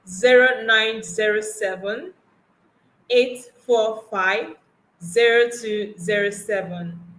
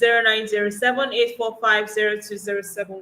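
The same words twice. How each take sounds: First: The number is read slowly. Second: The number is read fast.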